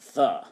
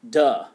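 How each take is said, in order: First: The word begins with a soft th sound. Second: The word begins with a hard d sound. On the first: The speaker calls it right. "instead of the" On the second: The speaker calls it wrong. "I used to say duh instead of the"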